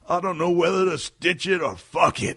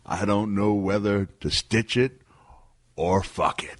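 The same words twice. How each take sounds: First: It is said at normal speed. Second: It is said slowly, drawn out.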